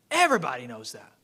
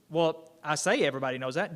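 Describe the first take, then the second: First: Mock certainty, dry and ironic; sarcastic. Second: Said in the usual way. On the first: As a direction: say it like everyone should know, ironically. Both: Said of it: "I'm being sarcastic".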